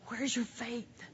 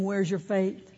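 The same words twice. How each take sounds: First: It sounds warm and loving. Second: It sounds harsh and condemning.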